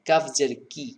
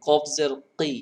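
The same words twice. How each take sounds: First: Said in the usual way. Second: কি said heavy from the back of the throat; heavy qaf. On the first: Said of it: "এটাকে normal". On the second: Shown as a demonstration. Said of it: "টক্করের মতো একটা sound". (মোটা করে কফ জের কি)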